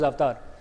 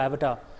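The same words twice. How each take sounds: First: It is said in the speaker's own accent. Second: It is said with an American accent.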